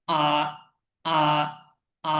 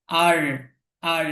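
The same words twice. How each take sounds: First: "আ" as an open vowel with silent r; British R. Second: "আর" with the final r sounded; American R. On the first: Teacher contrasts for learners the British r-less R. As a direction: leave "আ" open, dropping the r. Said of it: "ব্রিটিশদের উচ্চারণ হলো". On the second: Teacher contrasts for learners the American r-ful R. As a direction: close "আর" on an American r. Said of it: "আমেরিকার উচ্চারণ হচ্ছে". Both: Shown as a demonstration.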